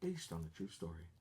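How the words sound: It is said in a dramatic announcer voice.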